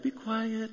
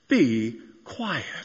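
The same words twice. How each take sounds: First: It is said softly and gently. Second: It is said firmly and forcefully. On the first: Soothing a small baby. "To a newborn, it's like" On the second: A firm command to stop at once. "We should probably hear it a little bit more like the 8 and 10-year-old boy version"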